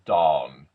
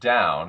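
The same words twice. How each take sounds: First: The vowel is a clean, straight aw. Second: The vowel glides like a normal ow. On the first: The speaker calls it right. "a nice, clean, straight aw" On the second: The speaker calls it wrong. "the ow sound"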